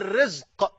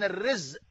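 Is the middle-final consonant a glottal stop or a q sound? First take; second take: q sound; glottal stop. First: The final consonant is a deep q sound. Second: The final consonant is a glottal stop. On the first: It means God-given sustenance. "أما الرزق بالقاف هو ما عرفته" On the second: It means a calamity. "الرزق بالهمزة المصيبة"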